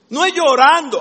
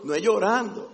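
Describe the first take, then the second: First: "No es llorando" preached loud and higher, stress on "es"; emphatic denial. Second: Said in the usual way. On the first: Shown as a demonstration. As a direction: hammer the "No es llorando". ("No es llorando" fuerte y enfático)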